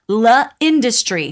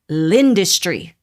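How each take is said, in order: First: The L is said as a separate syllable. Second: The L blends straight into the word. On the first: The speaker calls it wrong. "It is not la industry" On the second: The speaker calls it right. "the pronunciation is l'industry"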